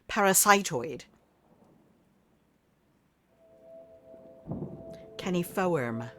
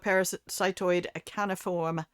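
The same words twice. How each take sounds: First: It is said in a put-on British accent. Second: It is said in the speaker's usual accent.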